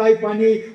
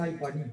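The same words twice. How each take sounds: First: Louder, desperate call for water; a child calling out in thirst; desperate cry for water. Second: Much softer, parched and fading; an exhausted child asking for water; faint thirsty plea. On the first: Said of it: "आईला म्हणलं". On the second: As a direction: barely get the words out, near collapse. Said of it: "डोळे पांढरे केले". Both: Retold or imitated.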